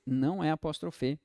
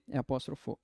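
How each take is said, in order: First: "apóstrofe" ending on -fe, as the form to reject; wrong form. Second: "apóstrofo" ending on -fo, softer and lower; correct form. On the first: Teacher rejecting the mistake, "apóstrofe" ending in -fe. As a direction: say "apóstrofe" with a final E. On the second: Teacher giving the right word, "apóstrofo" ending in -fo. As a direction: say "apóstrofo" with a final O, settled and low. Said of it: "Toma muito cuidado". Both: Shown as a demonstration.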